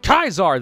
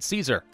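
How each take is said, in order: First: The name begins with a K sound. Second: The name begins with an S sound. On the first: "I'll pronounce it Kaiser then" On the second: "in America, you pronounce it Caesar"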